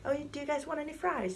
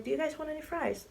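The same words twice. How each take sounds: First: High, sweet friendly offer; Haley offering fries, high and sweet. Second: High, sweet friendly offer; Haley repeating the offer, high and sweet. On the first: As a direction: offer the fries kindly and lightly. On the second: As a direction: ask again, lightly and kindly. Haley offers fries again. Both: Retold or imitated.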